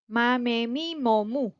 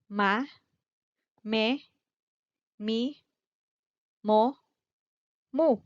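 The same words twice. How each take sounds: First: The syllables are said at a faster pace. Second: The syllables are said at a slower pace.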